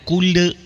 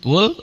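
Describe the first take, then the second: First: An extra e vowel follows the final l. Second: The word ends cleanly on the l. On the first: The speaker calls it wrong. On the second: The speaker calls it right.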